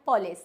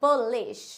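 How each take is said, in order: First: "पुलिस" with an o, as po-lis; wrong pronunciation. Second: "पुलिश" as po-LEESH, ending in sh; correct pronunciation. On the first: Teacher quotes what some people say, "पुलिस" as po-lis. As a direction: say "पुलिस" as POL-is. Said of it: "ना तो ये पुलिस होता है". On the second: Teacher gives learners the answer, "पुलिश" as po-leesh. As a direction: say "पुलिश" with a long second syllable. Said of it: "ये क्या होता है? पुलिश". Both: Shown as a demonstration.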